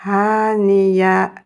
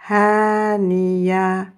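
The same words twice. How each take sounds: The two takes are said the same way.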